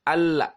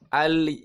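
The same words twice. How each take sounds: First: The L ends with an open a-like vowel. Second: The L ends with an i-like vowel. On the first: "terpengaruh dengan fathah" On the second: "terpengaruh dengan kasrah"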